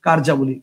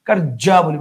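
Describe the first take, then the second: First: "কার্যাবলী" lower, with one short জ; single জ. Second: "কার্যাবলী" with the জ held double; doubled জ. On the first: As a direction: say "কার্যাবলী" as কার্জাবলী, no doubling. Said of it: "correct answer হবে হচ্ছে". ("কার্যাবলী"-তে একটাই জ, নিচু স্বরে) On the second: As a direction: split "কার্যাবলী" as কার্জ-জাবলী, stressing the double. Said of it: "মানে দুইটা জ". ("কার্যাবলী"-তে দুইটা জ দিয়ে ভুল উচ্চারণ) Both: Shown as a demonstration.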